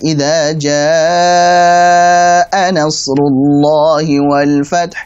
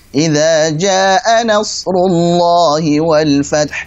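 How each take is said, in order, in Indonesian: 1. Vokal pada jaa dibaca enam harakat. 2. Vokal pada jaa dibaca dua harakat. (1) "misalkan enam harokat" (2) "bacanya cuma dua"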